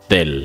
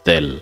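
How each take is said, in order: The two takes are said the same way.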